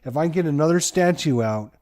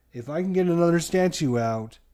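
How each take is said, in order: Both takes have the same delivery.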